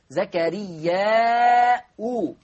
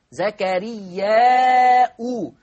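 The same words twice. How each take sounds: First: "زكريا أو" langsam mit Hamza und u; "زكريا" gedehnt, endet auf "u"; Nominativ-Endung vorgeführt. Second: "زكريا أو" lauter und langsam mit Hamza und u; "زكريا" kräftig, endet auf "u"; Nominativ-Endung laut. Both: Shown as a demonstration. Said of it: "من الذي كفل مريم؟ زكريا".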